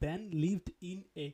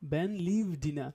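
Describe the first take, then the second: First: Each word is said separately without linking. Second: The words run together, with d joined to in. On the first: The speaker calls it wrong. "Instead of saying ব্যান লিভড ইন এ okay not" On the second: The speaker calls it right. "ব্যান লিভ ডিনা instead of saying"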